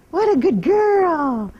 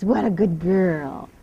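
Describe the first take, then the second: First: Higher, louder drawn-out praise; slow bright praise. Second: Drawn-out, lower soothing praise; slow low praise. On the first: Trainer lavishing praise on her mare, high and slow. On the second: Trainer soothing her mare with slow praise. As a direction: stretch it out slowly to calm her. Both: Real, not acted.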